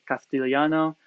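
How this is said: It is said with the Castilian lisp.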